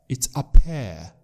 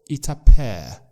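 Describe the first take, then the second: Both takes have the same delivery.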